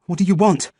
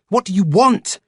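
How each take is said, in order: First: Breathless, higher, pushed out between gasps; winded, higher demand; panting. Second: Higher, louder scream; desperate screamed demand. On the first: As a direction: gasp it out after running. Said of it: "I panted". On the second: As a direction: scream it at him. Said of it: "I screamed". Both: A narrator's reading.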